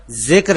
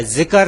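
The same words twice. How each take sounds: First: ذکر said zikr, k and r joined with no vowel; ذکر as one closed syllable, zikr; clipped ذکر with no extra vowel; correct pronunciation. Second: ذکر said zikar, an extra a before r; ذکر split into two syllables, zi-kar; mispronounced ذکر with an added vowel; common wrong pronunciation. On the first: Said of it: "ذکر ہے". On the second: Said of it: "ذکر نہیں ہے". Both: Shown as a demonstration.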